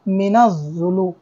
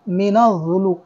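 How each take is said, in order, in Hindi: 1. 'min' दोहरी 'z' आवाज़ में मिल जाता है। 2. 'min' दोहरी 'z' आवाज़ में मिल जाता है।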